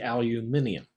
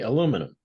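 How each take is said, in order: First: It is said with five syllables, British style. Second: It is said with four syllables, American style. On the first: "British say aluminium" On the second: "We say aluminum"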